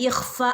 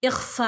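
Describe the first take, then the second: The two takes are said the same way.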